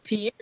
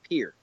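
First: It is said as two syllables, like pee-air. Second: It is said as one syllable, like peer. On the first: The speaker calls it wrong. "It's not Pierre" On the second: The speaker calls it right. "It's pronounced like pier"

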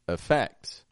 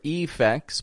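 First: The first vowel is a reduced schwa. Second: The first vowel is a full, clear vowel. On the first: The speaker calls it right. "but effects" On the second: The speaker calls it wrong. "or effects"

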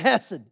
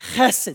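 First: It starts with a plain h, Texan style. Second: It starts with a rasping sound in the throat.

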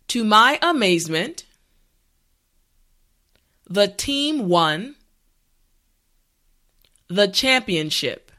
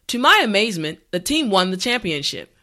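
First: The sentence is said at a slow pace. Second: The sentence is said at a natural pace. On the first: "this time repeat after me" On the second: "the last time at a regular pace"

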